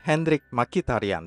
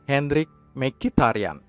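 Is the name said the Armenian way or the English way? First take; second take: English; Armenian. First: The name is said with English pronunciation. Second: The name is said with Armenian pronunciation. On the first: "seperti yang selalu dilafalkan orang-orang Inggris" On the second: "Pronunciation yang benar dalam bahasa Armenia"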